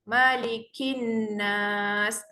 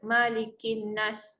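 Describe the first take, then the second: First: Kin is lengthened with nasal hum, ending smoothly. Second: The phrase is cut off abruptly at the end. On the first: The speaker calls it right. "Kin tu tolong panjangkan sikit sebab dia ada dengung" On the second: The speaker calls it wrong. "Kalau mengejut ... tak sedap bunyi dia"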